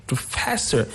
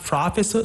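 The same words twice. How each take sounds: First: "professor" correctly stressed on FES; second-syllable stress. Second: "professor" wrongly stressed on PRO; wrong first-syllable stress. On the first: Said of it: "the stress is on the second syllable". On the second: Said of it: "you put the stress on". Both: Shown as a demonstration.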